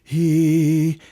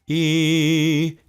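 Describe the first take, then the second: First: The vowel starts with an airy h-like breath. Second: The vowel starts cleanly without extra air or catch. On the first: The speaker calls it wrong. "A breathy or aspirated onset would sound like this" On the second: The speaker calls it right. "That was a demonstration of a balanced onset of sound"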